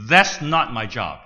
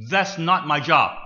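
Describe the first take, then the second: First: Firm, loud self-righteous answer; deadpan and defiant, louder. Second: Strong, loud self-righteous retort; straight-faced and firm, louder. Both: Retold or imitated. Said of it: "in a strong voice, self-righteous voice".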